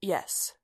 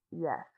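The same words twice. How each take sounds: First: Said in the usual way. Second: Very quiet, softened reply; buzzing whisper. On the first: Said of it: "He tried through the comlink again". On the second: A narrator's reading. Droid retries through the comlink, as quiet as possible. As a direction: keep it as quiet as you can. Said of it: "as quietly as he could. It came out as a buzzing whisper".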